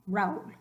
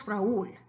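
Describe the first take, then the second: First: RAÚL as a single beat, "rowl"; one-syllable Raúl. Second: RAÚL split as ra-ÚL; two-syllable Raúl. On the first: Teacher trying the hard-to-say form, Raúl as "rowl". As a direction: run the A and U of Raúl together. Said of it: "hard to even say". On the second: Teacher giving the known name, two-syllable ra-ÚL. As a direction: give the ú in Raúl its own strong beat. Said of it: "We know it's Raúl". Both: Shown as a demonstration.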